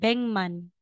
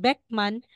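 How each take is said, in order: First: The first syllable ends in an ng sound. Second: The first syllable ends in a k sound. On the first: The speaker calls it right. "magiging Bengman" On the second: The speaker calls it wrong. "instead na sasabihin mong Beckman"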